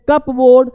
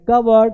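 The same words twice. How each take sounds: First: कपबोर्ड with full "CUP-BOARD"; spelling pronunciation. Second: कबर्ड as "KUB-erd", P silent; correct pronunciation. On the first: Teacher shows the wrong reading, read literally. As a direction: sound every letter of कपबोर्ड. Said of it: "तो ये गलत हो जाएगा". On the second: Teacher shows the right reading, corrected. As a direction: say कबर्ड with a short reduced ending. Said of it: "ये सही हो जाएगा". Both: Shown as a demonstration.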